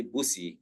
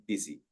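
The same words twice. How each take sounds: First: Busi said with a u as in put; wrong busi. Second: Busy said like bizzy; busy with a short i sound; right busy. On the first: Teacher showing the wrong way to say busi. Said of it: "we do not say busi". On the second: Teacher giving the right way to say busy. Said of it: "we say busy". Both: Shown as a demonstration.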